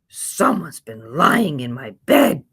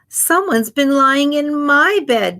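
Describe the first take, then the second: First: It is said in a big, deep growl. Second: It is said in a middle-sized voice.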